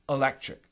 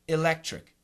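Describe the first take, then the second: First: The first vowel is a relaxed uh sound. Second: The first vowel is a short i sound. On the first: "the typical dictionary schwa sound is uh. So we say electric" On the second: "like a short I"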